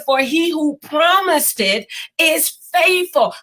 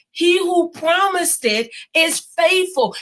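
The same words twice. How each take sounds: First: Said in the usual way. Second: "He who promised it is faithful" drawn out slowly, each word weighted; slow emphatic repeat. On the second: Shown as a demonstration. Preacher repeating the promise to viewers, slow and emphatic. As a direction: lean hard into "faithful" and let it land. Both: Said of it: "I'm gonna say that again".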